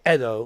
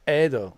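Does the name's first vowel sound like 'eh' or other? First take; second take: other; eh. First: The first vowel is not an 'eh' sound. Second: The first vowel is an 'eh' sound. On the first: This is how other countries say the name. "we don't say Edo" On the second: This is how the name is said in Bosnia. "we say Edo. Edo. Like eh and do"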